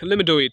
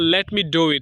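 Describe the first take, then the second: First: Let me is run together as lemme. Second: Let me is said as two full words.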